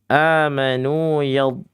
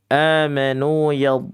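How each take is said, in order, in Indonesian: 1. Konsonan akhir dibuat dengan bagian samping lidah. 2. Konsonan akhir dibuat dengan bagian samping lidah.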